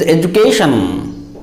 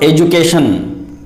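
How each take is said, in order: First: EDUCATION with a long, airy "KAY"; correct pronunciation. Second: EDUCATION said the wrong common way, plain "kay"; mispronunciation. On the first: Teacher corrects learners, education pronounced with long "KAY". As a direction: stretch and aspirate KAY in EDUCATION. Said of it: "It is education". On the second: Teacher warns learners off education mispronounced with unaspirated K. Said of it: "and not education". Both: Shown as a demonstration.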